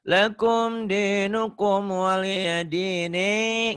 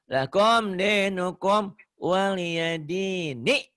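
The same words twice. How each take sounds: First: The final vowel is drawn out long. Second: The final vowel is kept short. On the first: The speaker calls it wrong. "nggak boleh" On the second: The speaker calls it right. "pendek, kosar gitu ya"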